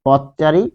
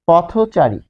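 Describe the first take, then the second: First: "পথচারী" as pot-chari, no vowel after থ; unlinked pronunciation. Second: "পথচারী" with an o after থ, potho-chari; linked compound pronunciation. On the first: Teacher asking what we say, unlinked pot-chari pronunciation. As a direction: end the first part of "পথচারী" on a bare th. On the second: Teacher giving students an example, linked potho-chari pronunciation. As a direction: join "পথচারী" with a rounded o. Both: Shown as a demonstration. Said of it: "আমরা কি বলি".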